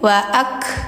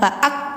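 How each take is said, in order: First: The final consonant releases with flowing breath. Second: The final consonant is stopped and held. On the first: The speaker calls it right. "tapi waak" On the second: The speaker calls it wrong. "waak itu ditahan ya"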